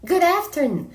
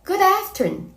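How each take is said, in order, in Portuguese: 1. A última sílaba noon é curta e átona. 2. A última sílaba noon é curta e átona.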